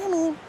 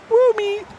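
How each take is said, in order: First: It is said with a gurgly, underwater sound. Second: It is said in a high voice.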